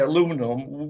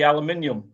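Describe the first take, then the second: First: It is said the American way. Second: It is said the British way. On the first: "the Americans say aluminum" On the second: "we say aluminium"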